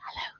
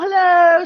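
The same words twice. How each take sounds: First: The greeting is said quietly. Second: The greeting is said loudly. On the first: The place needs silence. "in a public library because people are reading" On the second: The place is noisy and fun. "If you're in the swimming pool, you're going to be louder"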